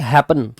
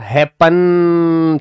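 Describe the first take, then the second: First: The stress is on the first syllable. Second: The stress is on the second syllable. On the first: The speaker calls it right. "Happen ऐसे ही तो बोलेंगे" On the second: The speaker calls it wrong. "Happen थोड़ी कहेंगे इसको"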